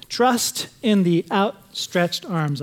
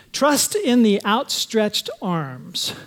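First: Slow, stressing "Trust"; slow emphatic. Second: Slow, stressing "in"; slow emphatic. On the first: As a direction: punch "Trust", then slow down. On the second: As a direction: lean on each word slowly. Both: Shown as a demonstration. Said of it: "Point number one is this".

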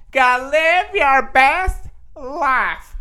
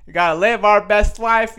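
First: High, slow, stretched-out slogan; mock motivational quote. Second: Said in the usual way. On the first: Vlogger to viewers, quoting a slogan in a high, slow drawl. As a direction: croon it like a self-help guru. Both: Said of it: "I'm just gonna be quoting everybody".

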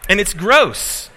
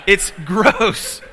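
First: Loud, slow and higher, hamming up the disgust; mock disgust. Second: Gross said through a laugh, higher and louder. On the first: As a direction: drag out gross like it really grossed you out. Disgusted story punchline. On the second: Real, not acted. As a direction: crack up as you repeat it. Repeats while laughing.

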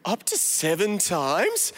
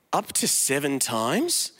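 First: Slow, smug stretched question; self-righteous tone. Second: Smug, slow little question; self-righteous tone. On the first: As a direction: drag it out, pleased with himself. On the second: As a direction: ask it as if seven were generous. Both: Acted. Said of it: "I love his, like, self-righteous tone in there".

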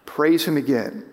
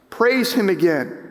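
First: Said in the usual way. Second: "Praise him again" lifted higher, falling at the end; "Praise" pitched up as a firm exhortation; emphatic repeat. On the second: Real, not acted. Repeats exhortation with more force.

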